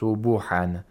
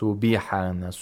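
First: A short u vowel follows the b. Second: A short i vowel follows the b. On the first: "We don't say" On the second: "We don't say"

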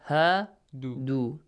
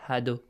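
First: Both vowels are pronounced long. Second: The vowels are pronounced short. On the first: The speaker calls it right. "Both are long vowel sounds" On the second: The speaker calls it wrong. "Not هَادُوا"

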